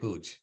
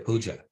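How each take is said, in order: First: The word ends without the final vowel. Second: The word ends with the final vowel sounded. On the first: The speaker calls it wrong. "we don't want to say Pooj" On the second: The speaker calls it right. "we want to say Puja"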